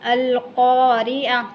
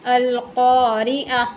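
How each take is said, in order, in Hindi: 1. शब्द एक हल्की मूक 'h' की आवाज़ से खत्म होता है। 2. शब्द एक हल्की मूक 'h' की आवाज़ से खत्म होता है।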